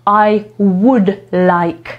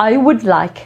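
First: Slow, careful "I would like", "would" said "wud" with no l; silent l in would. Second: Said in the usual way. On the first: Shown as a demonstration. Teacher slowly showing students the silent l in "would". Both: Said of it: "ale my jej nie wymawiamy".

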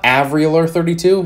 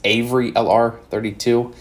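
First: "Avery" with a short flat A, as in "average"; mispronounced name. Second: "Avery" with a long A, as in "ay"; correct name pronunciation. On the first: Showing viewers how others misread the channel name, mispronounced. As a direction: say "Avery" wrongly, opening like "avenue". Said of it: "says it wrong. It's not". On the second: Correcting viewers on the channel name, properly pronounced. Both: Shown as a demonstration.

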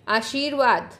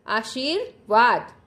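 First: Said in the usual way. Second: "आशीर्वाद" slowly, split before the last syllable; slow model pronunciation. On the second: Shown as a demonstration. Teacher has children repeat "आशीर्वाद", slowly, broken in two. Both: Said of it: "मेरे साथ साथ बोलिएगा".

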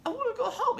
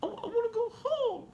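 First: Imitated child's scream. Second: Put-on very high, choked little-girl plea; imitating tearful child. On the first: Dad retells sick daughter losing control, high-pitched mild scream. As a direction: imitate a little girl breaking into a cry. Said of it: "And she just screams it". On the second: Dad retells sick daughter in hospital wanting home, high tearful voice. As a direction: imitate a daughter holding back tears as she pleads. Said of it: "swallowing it to try to hold it back".

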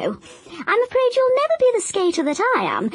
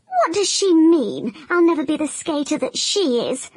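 First: "never" lifted high in the grandmother's boast; stress on never. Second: Higher, offended crocodile voice; indignant crocodile. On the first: Grandmother boasting to her grandson, "never" lifted high. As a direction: let "never" soar up in pride. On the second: Crocodile reading grandmother's letter, higher and indignant. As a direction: protest like a wounded champion. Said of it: "he cried". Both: Acted.

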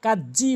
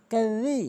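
First: কাজি with a hard j; wrong j sound. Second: Tongue between the teeth for the middle of কাজি; correct dhal. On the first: Retold or imitated. Teacher mimics the mistake, hard Bengali j. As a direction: say কাজি as "kaj-jee". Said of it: "এখানে কাজি বলে". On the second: Shown as a demonstration. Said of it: "সঠিক উচ্চারণ হচ্ছে".

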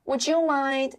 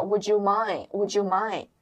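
First: Said in the usual way. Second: WOULD YOU MIND with MIND ending on "mai-n"; silent final D. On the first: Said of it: "Mind的不发". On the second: Shown as a demonstration. Teacher shows learners the reduced phrase, silent final D. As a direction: drop the D at the end of MIND. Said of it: "Mind的不发音，所以叫".

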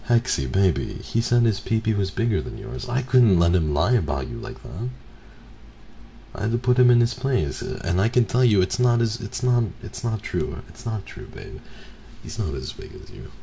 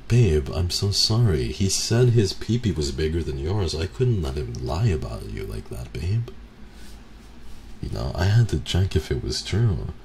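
First: Higher and louder, over-the-top pleading; hammed-up sappy boyfriend. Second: Hammed-up sweet-talk to a partner; mock sappy boyfriend. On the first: Boyfriend pleading with his girlfriend, over-the-top and sugary. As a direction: push the syrupy excuse even harder. Repeating the excuse, more hammed. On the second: Boyfriend sweet-talking his girlfriend, hammed-up and pleading.

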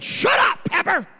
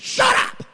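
First: High, loud voiced shout at Pepper; yelling at dog. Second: High, loud shouted "Shut up!" at the dog; yelling at dog. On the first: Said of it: "I look over at him and I said". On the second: Retold or imitated. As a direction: bark it at the pestering dog. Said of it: "I said".

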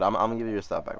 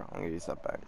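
First: Said in the usual way. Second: Much softer, breathy aside; hushed repeat as if to himself; whisper. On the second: Real, not acted. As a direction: say it again under your breath. Repeats it under his breath.

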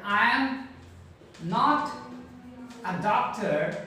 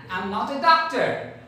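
First: I am, not, a doctor spaced out with pauses between words; slow full form. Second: I'm said as one quick syllable, aɪm; contracted I'm. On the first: Teacher slowly models each word for learners. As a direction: spell it out word by word, pausing. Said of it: "Here I'm using not". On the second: Teacher models the contracted form for students. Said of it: "Here you see where I'm using not here". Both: Shown as a demonstration.

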